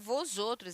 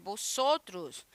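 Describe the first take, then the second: First: The first consonant is a clear V sound. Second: The first consonant is a soft B sound. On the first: The speaker calls it wrong. "Não é vós outros" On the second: The speaker calls it right. "Vosotros é um B que você fala. Não é um B bem, né, marcado"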